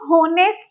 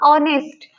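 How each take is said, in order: First: The word starts with an h sound. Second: The word starts with a vowel sound. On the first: The speaker calls it wrong. "इसको होनेस्ट नहीं कहते, क्योंकि एच का sound ये नहीं दे रहा" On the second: The speaker calls it right. "ये एच ... silent होता है, इसको बोला नहीं जाता"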